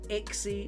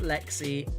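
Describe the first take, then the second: First: The name begins with a vowel sound. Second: The name begins with an L sound. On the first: The speaker calls it right. "It is Ixie" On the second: The speaker calls it wrong. "not Lexi"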